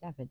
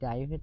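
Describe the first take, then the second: First: The name is said with a Welsh pronunciation. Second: The name is said with an English pronunciation. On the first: This is how they say the name. "they say David" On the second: This is not how they say the name. "they don't say David"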